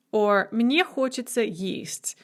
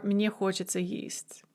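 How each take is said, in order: First: Said in the usual way. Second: Soft unvoiced whisper of мне хочется есть; hushed repeat of мне хочется есть. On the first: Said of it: "teacher models the phrase". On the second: Shown as a demonstration. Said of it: "teacher repeats phrase whispered".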